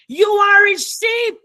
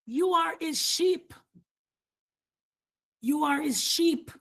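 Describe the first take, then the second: First: Louder and higher, proclaimed to the room; loud proclamation. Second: Much softer, gently restated; soft repeat. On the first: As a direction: call it out with full force. Preacher repeating key line. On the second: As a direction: drop the voice and say it tenderly. Same line repeated softly. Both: Real, not acted.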